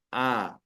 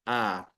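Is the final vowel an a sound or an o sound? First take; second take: a sound; a sound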